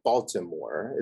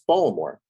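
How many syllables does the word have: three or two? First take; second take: three; two. First: The word is said with three syllables. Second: The word is said with two syllables. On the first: The speaker calls it wrong. "It's not Baltimore" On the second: The speaker calls it right. "It's two syllables"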